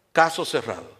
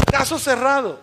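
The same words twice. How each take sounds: First: Said in the usual way. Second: High-pitched, mimicked verdict; playful imitation of a televised verdict; TV show catchphrase. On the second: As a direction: announce it like a TV show's closing ruling. Mimics the show's catchphrase, audience laughing.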